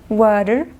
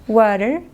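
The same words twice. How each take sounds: No difference in how they are said.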